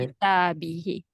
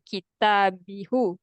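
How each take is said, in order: First: The final vowel is an 'i' sound. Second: The final vowel is a 'u' sound. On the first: The speaker calls it right. "So now we use he" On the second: The speaker calls it wrong. "We don't say kita bihu"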